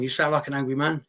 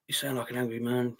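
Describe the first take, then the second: First: Said in the usual way. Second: Low, softer, put-on voice echoing the comment; mocking echo. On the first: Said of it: "You sound like an angry man, yeah". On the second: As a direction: parrot the commenter back mockingly.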